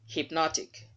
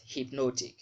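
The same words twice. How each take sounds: First: "Hypnotic" as "hip-NOT-ik", short open O; raised pitch, stressed "NOT" in "Hypnotic"; correct pronunciation. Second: "hypnotic" with a long O, "hip-NOH-tik"; wrong pronunciation. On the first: Teacher modelling the right word, correct pronunciation. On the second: Teacher showing learners the mistake, wrong pronunciation. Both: Shown as a demonstration. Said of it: "not hypnotic".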